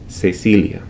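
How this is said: The c sounds are said like s. This is how it is said in Latin America. "in Latin America it's pronounced as an S"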